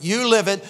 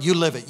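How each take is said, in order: First: "You live it" louder, with a lift in pitch; emphatic repeat. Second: Said in the usual way. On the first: Real, not acted.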